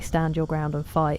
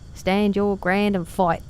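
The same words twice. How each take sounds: First: It is said in the speaker's plain accent. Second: It is said in a bad put-on Cockney accent. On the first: "He's supposed to say" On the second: "does a Cockney accent, but he doesn't. It's really bad"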